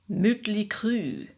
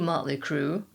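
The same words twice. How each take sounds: First: The vowels are rounded German umlaut vowels. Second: The vowels are plain English vowels.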